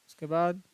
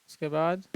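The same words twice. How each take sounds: Both takes have the same delivery.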